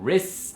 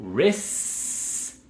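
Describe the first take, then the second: First: It ends with a short tapped t sound. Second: It ends on a long s with no t. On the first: "como si fuera un tamborcito al final" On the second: "digan la S, res, olvídense la T"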